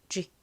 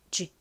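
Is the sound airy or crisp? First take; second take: crisp; crisp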